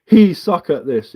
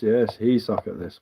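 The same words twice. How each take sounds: First: Slow, a touch louder read of his words; slow sneering quote; mocking read-out. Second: Slow, softer sarcastic reply; slow, softer sarcastic echo; sarcastic agreement. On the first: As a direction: read his line out to mock it. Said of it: "read-back of chat line". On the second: Retold or imitated. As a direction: agree with mock patience.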